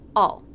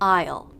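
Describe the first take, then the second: First: The word is reduced to sound like all. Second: The word is said fully with a clear diphthong. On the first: "In casual conversation, this will probably be reduced to all" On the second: "we start with a contraction"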